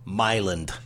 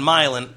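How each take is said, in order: First: The word ends with a d sound. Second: The word ends without a d sound. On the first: The speaker calls it wrong. "People who pronounce the town in Illinois" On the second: The speaker calls it right. "There's no D"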